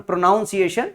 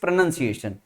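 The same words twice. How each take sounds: First: "pronunciation" said as pro-NOUN-ciation, with the noun sound; wrong pronunciation. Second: "pronunciation" said as pro-NUN-ciation, no noun sound; right pronunciation. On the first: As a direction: stress the wrong noun vowel. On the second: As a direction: say it the correct way, short nun. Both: Shown as a demonstration. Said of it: "it's not pron".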